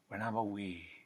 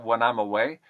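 First: The vowel in away is close to ee. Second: The vowel in away is a usual ay.

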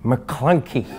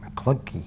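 First: It is said in an angry tone. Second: It is said in a neutral tone.

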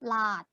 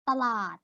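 First: Only the last syllable is said, short. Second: The word is said in full with both syllables. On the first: This is the southern dialect form. "ภาษาถิ่นใต้จะพูดว่า" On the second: This is the standard form. "คำว่าตลาด"

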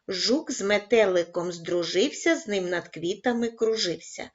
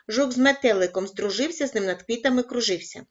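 First: It is read at a slow pace. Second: It is read at a fast pace. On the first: "кожного разу пришвидшуючи темп" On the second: "кожного разу пришвидшуючи темп"

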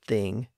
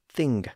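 First: The word ends in a nasal without G. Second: The word ends with an audible hard G. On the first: This is the modern pronunciation. "that hard G sound started to disappear" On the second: This is the older pronunciation before the late 1500s. "had retained their distinct hard G sounds at the end"

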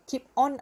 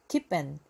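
First: The second word sounds like 'on'. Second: The second word sounds like a short 'an'. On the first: The speaker calls it wrong. "Keep on eye 하지 마시오. on 말고요" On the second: The speaker calls it right. "그냥 n으로 n 자생하시면 돼요"

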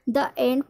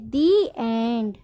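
First: 'The' is said with a short 'uh' vowel. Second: 'The' is said with a long 'ee' vowel. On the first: The speaker calls it wrong. "द end पढ़ना गलत होगा" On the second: The speaker calls it right. "तो हम क्या पढ़ेंगे दी पढ़ेंगे"

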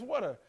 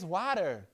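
First: It is said with a New York vowel. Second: It is said without a New York vowel. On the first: "that's how you say it. It's water" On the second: "No, it's not. It's water"

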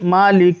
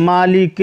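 No difference in how they are said.

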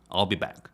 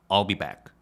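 No difference in how they are said.

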